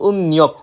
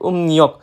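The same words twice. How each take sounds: The two takes are said the same way.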